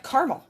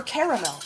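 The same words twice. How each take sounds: First: Caramel said as car-a-mel; caramel with all three syllables, car-a-mel. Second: Caramel said as car-mel; caramel squeezed to two syllables, car-mel. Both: Shown as a demonstration. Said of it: "depending on how you wanna say that".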